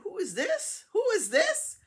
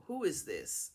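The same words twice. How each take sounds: First: Much higher, rising and getting louder; insistent confused question. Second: Said in the usual way. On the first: Retold or imitated. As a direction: demand to know who is calling. Acts out confused, insistent repeated question.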